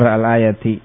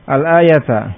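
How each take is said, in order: First: The word ends with the vowel i. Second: The word ends with the vowel a. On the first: The word follows an omitted 'the rest of'. "Bisa juga dengan jar" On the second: The word is the object of an omitted verb meaning 'read'. "Al-ayata bisa dibaca nasab"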